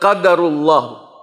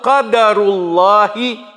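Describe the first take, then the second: First: The word ends with a 'u' vowel. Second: The word ends with an 'i' vowel. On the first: The speaker calls it wrong. "Itu kekeliruan" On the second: The speaker calls it right. "atau qadarullahi wa ma syaa fa'al"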